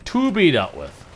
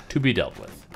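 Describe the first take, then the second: First: Higher, louder ominous read; dramatic repeat. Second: Said in the usual way. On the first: Shown as a demonstration. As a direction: say it like a movie trailer.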